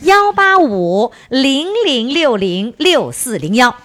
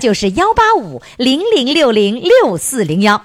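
First: The number is read slowly. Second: The number is read quickly.

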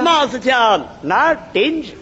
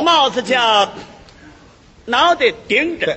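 First: It is said quickly with the words slurred. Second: It is said slowly with each word clear.

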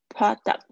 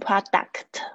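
First: The final t is very light. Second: The final t is forced and hard. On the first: The speaker calls it right. "这个t 很轻的" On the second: The speaker calls it wrong. "你不要硬要念成product，就很口音太重"

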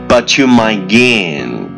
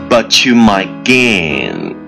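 Both takes have the same delivery.

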